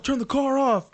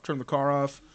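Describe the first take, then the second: First: Loud, much higher police command; raised voice, ordering a driver from afar; cop over loudspeaker. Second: Said in the usual way. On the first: Retold or imitated. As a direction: imitate a cop shouting "turn the car off". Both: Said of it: "on his little thing, he's like".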